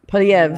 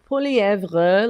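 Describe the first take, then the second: First: The name is said with its ending clipped short. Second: The name is said with its full French ending. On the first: "But in Canada, we say we're supposed to say" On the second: "like that's how I would I learned France French"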